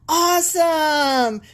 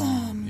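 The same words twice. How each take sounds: First: It is said with casual, excited enthusiasm. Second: It is said with solemn, reverent awe.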